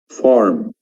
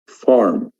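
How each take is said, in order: The two takes are said the same way.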